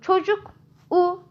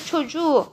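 First: The consonant before the ending is a hard k. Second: The consonant before the ending is a soft ğ. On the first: The speaker calls it wrong. "diyemeyeceğimize göre" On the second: The speaker calls it right. "çocuğu diyoruz artık"

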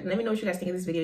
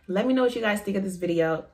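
First: It is said very fast. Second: It is said more slowly.

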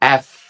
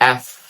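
The two takes are said the same way.

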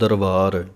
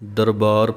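First: The middle consonant is a v sound. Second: The middle consonant is a b sound. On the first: The speaker calls it wrong. "ਕਈ ਵਾਵਾ ਲਾ ਜਾਂਦੇ ਹਨ" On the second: The speaker calls it right. "ਦਰਬਾਰ ਪੜ੍ਹਨਾ ਹੈ ਬੱਬੇ ਦੇ ਨਾਲ"

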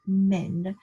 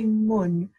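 First: The vowel is an e sound. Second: The vowel is a short u sound. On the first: "You're not going to say mun or men" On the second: "You're not going to say mun or men"

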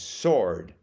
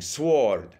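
First: The w sound is silent after the s. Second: The w sound is pronounced after the s. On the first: The speaker calls it right. "no, no, it's sword" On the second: The speaker calls it wrong. "she kept on saying sword"

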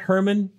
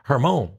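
First: The name is said the American English way. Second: The name is said the French way. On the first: "Hermon is a pretty Americanized last name" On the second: "But that's French"

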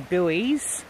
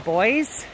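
First: The word is said the American way. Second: The word is said the Australian way. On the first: "Americans would say buoys" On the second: "We call them buoys"

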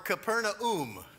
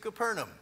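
First: It is said the way locals say it. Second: It is said the familiar English way.

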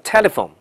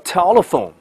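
First: British accent, with a single plain L. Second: American accent, with a dark and clear L. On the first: "英式发音没有的叫telephone" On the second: "美音叫telephone"

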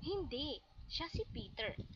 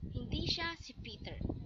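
First: There is a pause after the first word. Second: It is said without a pause. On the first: The person is Peter, correcting someone. "tinatama o pinagdidiinan ng tagasalita na si Peter ay ang taong tinutukoy" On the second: The person is not Peter. "ang tao ay hindi si Peter"

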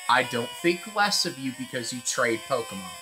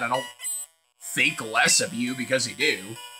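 First: It is said in a nice tone. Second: It is said in a smug tone.

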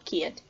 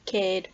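First: The vowel glides from 'ee' to 'uh'. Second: The vowel is a single steady 'ay' sound. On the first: Younger speakers or other dialects say it this way. "In other dialects and also with younger speakers, it's often pronounced ear" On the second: Older speakers or some dialects say it this way. "In some dialects and also a lot with older speakers, it's pronounced E"

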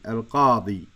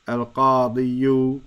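First: The word ends on a plain long -i. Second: The word ends with an added -yu syllable. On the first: The speaker calls it right. "We say ... al-qadi" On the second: The speaker calls it wrong. "we don't say ... al-qadiyu"

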